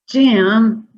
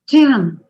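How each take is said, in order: First: The word is said in a frustrated voice. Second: The word is said in an excited voice. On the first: "in a very frustrated way" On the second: "in an excited way"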